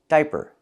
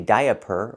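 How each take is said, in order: First: The first part has one long I sound. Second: The first part has two separate vowel sounds. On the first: The speaker calls it right. "One vowel, one sound, I" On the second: The speaker calls it wrong. "We don't say diaper"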